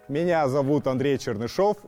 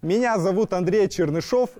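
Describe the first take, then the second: First: It is spoken in a middle register. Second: It is spoken in a high head register.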